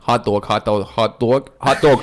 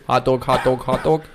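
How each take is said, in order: First: Repeating "hot dog" to find a Boston accent; Boston accent warm-up. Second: Lightly Boston "hot dog, hot dog"; Boston accent warm-up. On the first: Calibrating his Boston accent for the podcast crew with "hot dog". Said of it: "hot dog is my calibration word". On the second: Recalibrating his Boston accent mid-podcast. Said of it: "If I ever lose it like this". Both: Shown as a demonstration.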